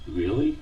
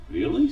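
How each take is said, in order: First: A hesitant, unsure question; doubtful, timid. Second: Firmer, slightly more confident question; a bit more assured. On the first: Pancho doubts the Supreme Judge's offer, timid. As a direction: ask it as if afraid to believe. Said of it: "he asked in a doubtful, timid voice". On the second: Pancho asks the Judge again, a bit more assured. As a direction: ask again, starting to believe. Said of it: "with a little more assurance". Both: A narrator's reading.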